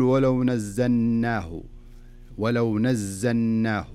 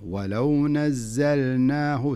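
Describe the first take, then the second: First: "ولو نزلناه" slowly, the lam of "ولو" swallowed into the nun; wrong reading shown. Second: "ولو نزلناه" very slowly, a clear still lam at the end of "ولو" before the nun; lam sounded clearly. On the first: Sheikh imitating the student's mistake, lam dropped. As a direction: let "ولو" run straight into "نزلناه" with no lam heard. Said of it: "فلذلك لا تقول". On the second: Sheikh giving the corrected reading, lam made clear. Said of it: "لا، خلها اللام ظاهرة". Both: Shown as a demonstration.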